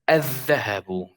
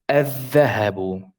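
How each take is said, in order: First: The L is dropped and the next consonant doubled. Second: The same.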